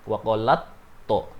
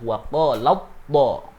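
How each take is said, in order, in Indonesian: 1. Huruf t terakhir dibaca terpisah, tidak menyatu. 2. Huruf t terakhir menyatu dengan bunyi t berikutnya. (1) "bukan waqalat to" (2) "wajib dibaca idgham atau memasukkan huruf tak mati ke huruf ta"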